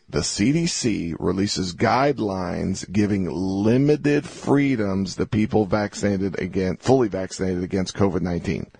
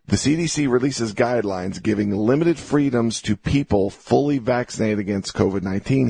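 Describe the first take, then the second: First: It is read slowly and deliberately. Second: It is read at a normal pace.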